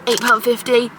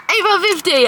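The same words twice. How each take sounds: First: Said in the usual way. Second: Higher, outraged "Eight pound fifty!"; the price hits and she yelps it; half-joking disbelief at the cost; shocked at price. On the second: Real, not acted. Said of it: "Holy shit!".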